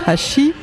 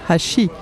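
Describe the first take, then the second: First: The pitch rises at the end of the word. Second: The pitch falls at the end of the word. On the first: "l'intonation finale est ascendante" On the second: "l'autre descendante"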